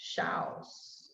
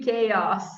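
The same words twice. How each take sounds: First: The word is read the Brazilian-Portuguese way. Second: The word is said the standard English way. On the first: The speaker calls it wrong. "at least for Brazilians, when we look at this word, oh" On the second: The speaker calls it right. "is actually"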